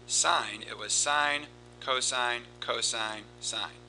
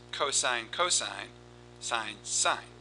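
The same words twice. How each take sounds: First: "sine, cosine, cosine, sine" tapped out word by word with the beat on each; each of "sine", "cosine", "cosine", "sine" given its own beat; sine cadence. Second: "cosine, cosine, sine, sine" tapped out word by word with the beat on each; each of "cosine", "cosine", "sine", "sine" given its own beat; cosine cadence. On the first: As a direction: count out "sine, cosine, cosine, sine" like a rhythm. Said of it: "Notice the cadence is different". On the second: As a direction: count out "cosine, cosine, sine, sine" like a rhythm. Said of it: "Notice here".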